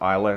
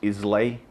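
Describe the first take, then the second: First: The word ends with an 'uh' sound. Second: The word ends with an 'ay' sound. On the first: The speaker calls it right. "but it's actually pronounced Isla" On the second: The speaker calls it wrong. "A lot of people mispronounce it as Islay"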